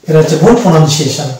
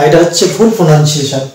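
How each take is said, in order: No difference in how they are said.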